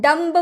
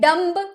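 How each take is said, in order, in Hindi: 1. आखिर में b की आवाज़ सुनाई देती है। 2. आखिर में b की आवाज़ सुनाई देती है।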